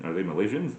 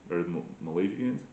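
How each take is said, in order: First: "Malaysians" with a "zh-unz" ending; three-syllable Malaysians. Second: "Malaysians" with a "zhee-unz" ending; four-syllable Malaysians. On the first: Puzzling over the word, "Malaysians" said ma-LAY-zhunz. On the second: Trying another version, "Malaysians" said ma-LAY-zhee-unz. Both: Shown as a demonstration. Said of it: "what is a Malaysian?".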